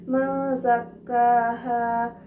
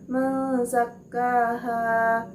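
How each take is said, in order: No difference in how they are said.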